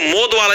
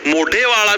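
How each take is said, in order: First: The first word is said as short 'Mod'. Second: The first word is said as longer 'Modhe'. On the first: "इसको मोद वाला भी बोल देते हैं" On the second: "मोढ़े वाला भी बोल देते हैं"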